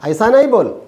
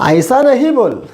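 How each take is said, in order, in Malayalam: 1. 'not' എന്ന വാക്ക് 'nai' എന്ന് ചുരുക്കി പറയുന്നു. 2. 'not' എന്ന വാക്ക് പൂർണ്ണമായി പറയുന്നു, 'nahi'. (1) "പറയുമ്പോൾ നൈ നൈ എന്നൊക്കെ പറയുക" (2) "ഈ നഹി എന്നൊന്നും അല്ല പറയുക"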